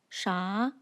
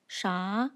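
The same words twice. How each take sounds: First: The pitch rises upward. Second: The pitch rises upward.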